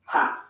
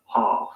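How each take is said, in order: First: "half" with a flat a as in cat; American English, flat a in "half". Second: "half" with a long open ah; British English, broad a in "half". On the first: Teacher giving the US half. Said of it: "And in the U S". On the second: Teacher giving the UK half. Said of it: "in the U K". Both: Shown as a demonstration.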